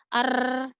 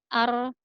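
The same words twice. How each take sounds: First: The r is trilled long and excessively. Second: The r is trilled with only two taps. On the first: The speaker calls it wrong. "getarannya tidak perlu berlebihan, tidak ar, tidak usah seperti itu" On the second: The speaker calls it right. "cukup dua getaran saja"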